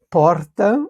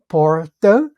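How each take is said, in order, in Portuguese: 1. O R é pronunciado forte e carregado. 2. O R é pronunciado em estilo caipira. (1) "que é um R bem mais carregado" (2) "um R mais caipira"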